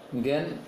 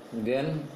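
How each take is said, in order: No difference in how they are said.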